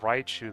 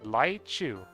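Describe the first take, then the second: First: The word begins with an English R sound. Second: The word begins with an L-like sound. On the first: "instead of Raichu" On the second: "they might say Laichu"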